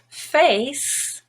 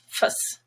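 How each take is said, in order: First: The vowel is a full, long vowel. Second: The vowel is reduced to a schwa. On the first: "Face is gray" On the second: "face becomes fuss"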